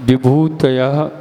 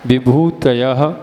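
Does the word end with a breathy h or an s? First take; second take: breathy h; breathy h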